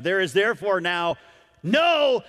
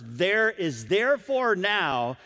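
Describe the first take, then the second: First: Verse ending in a ringing no; emphatic no. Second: Slow, each word weighed; slow, weighty verse. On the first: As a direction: build to a big shouted no. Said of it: "how strongly the Holy Spirit is trying". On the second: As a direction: lay it down slowly and firmly. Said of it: "in no uncertain terms". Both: Shown as a demonstration.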